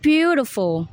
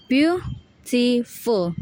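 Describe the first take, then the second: First: "beautiful" with a strong, long first syllable; stress on BEAU. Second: "beautiful" in three slow, separate syllables. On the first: Student showing primary stress, BEAU punched in "beautiful". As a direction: hit BEAU in "beautiful", let the rest fall. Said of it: "primary stress is beau". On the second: Student repeating the syllables, "beautiful" slow and separated. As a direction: break "beautiful" into beau, ti, ful. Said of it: "the syllables are". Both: Shown as a demonstration.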